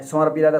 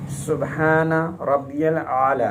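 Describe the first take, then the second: First: It is said fast. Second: It is said slowly.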